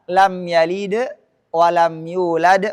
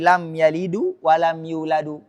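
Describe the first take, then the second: First: Both verbs end on a bare consonant. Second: Both verbs end with an added u vowel. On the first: The speaker calls it right. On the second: The speaker calls it wrong.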